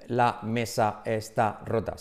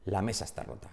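First: Slow, every word separated in "La mesa está rota"; halting, one-word-at-a-time "La mesa está rota". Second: "La mesa está rota" linked as one quick, soft word; words run together. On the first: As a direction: say "La mesa está rota" as spaced-out single words. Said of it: "no hablan así, no dicen". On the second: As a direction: glide through "La mesa está rota" with no gaps. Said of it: "sino dicen". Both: Shown as a demonstration.

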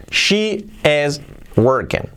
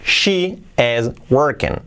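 The two takes are said the same way.

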